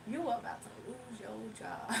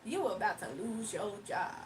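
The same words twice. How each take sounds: First: Hushed, airy repeat; playful whisper. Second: Said in the usual way. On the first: Pretend. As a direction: whisper it softly, then break off.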